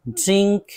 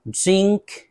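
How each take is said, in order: No difference in how they are said.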